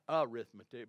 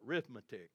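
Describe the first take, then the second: First: The word begins with a vowel sound. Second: The word begins with an r sound. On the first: The speaker calls it wrong. "Not arithmetic" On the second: The speaker calls it right. "but arithmetic, you know. That's where they come up with the 3 R's"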